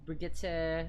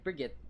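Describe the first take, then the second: First: The name is said with three syllables. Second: The name is said with two syllables. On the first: "I don't like saying that last part of Brigitte's te. Because it's like a third syllable" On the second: "I'm just like shortcutting it in a sense"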